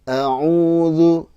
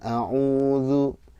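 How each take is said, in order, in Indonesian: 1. Nadanya naik sedikit pada vokal 'u'. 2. Nadanya tetap datar pada vokal 'u'. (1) "nah, gitu" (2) "jangan a'udzu"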